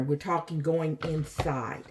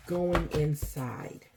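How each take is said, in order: First: Said in the usual way. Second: Slow, soft going inside; stretched, gentle repeat; slow emphasis. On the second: Shown as a demonstration. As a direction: let Going inside sink in slowly. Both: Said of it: "repeated slowly".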